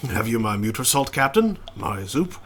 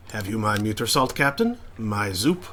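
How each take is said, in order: First: French chef accent. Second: A hint of a French accent creeping in; tentative French chef accent; starting a French accent. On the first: Player redoing the chef's line with French accent. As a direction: lean a little more into the French. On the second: Player trying a French accent on the chef. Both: Shown as a demonstration. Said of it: "I am starting to give him a French accent".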